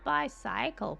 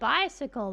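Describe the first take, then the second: First: The ending is said fully like 'cycle'. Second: The ending is reduced, not said like 'cycle'. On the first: The speaker calls it wrong. "I keep reading bi and then cycle and throwing them together" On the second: The speaker calls it right. "Everyone pronounces it bicycle"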